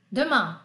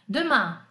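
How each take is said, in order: First: Demain de novo, final nasal an; modelo repetido. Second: Demain com final nasal an; modelo de pronúncia. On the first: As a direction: repita Demain com nasal. (professora repete Demain) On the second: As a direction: diga Demain, nasal no fim. (professora modela Demain) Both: Shown as a demonstration. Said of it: "Repete como você puder".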